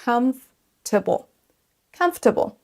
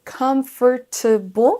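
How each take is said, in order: First: Comfortable as COMF-ta-ble, middle syllable dropped; correct pronunciation. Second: Comfortable in four separate syllables, com-for-ta-ble; every syllable pronounced. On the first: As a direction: say comfortable in three syllables, stressing the first. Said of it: "Ce mot se prononce en fait". (comfortable en trois syllabes, accent sur la première) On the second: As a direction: say comfortable slowly, sounding out each syllable. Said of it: "prononcer toutes les syllabes distinctement". (comfortable en détachant les quatre syllabes) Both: Shown as a demonstration.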